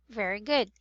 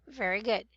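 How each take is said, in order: Both takes have the same delivery.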